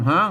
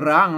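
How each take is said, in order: First: The word begins with an h sound. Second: The word begins with an r sound. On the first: The speaker calls it right. "อ่านว่าห้างนะครับ" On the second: The speaker calls it wrong. "ไม่ใช่ร้างนะครับ"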